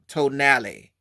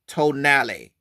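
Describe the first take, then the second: No difference in how they are said.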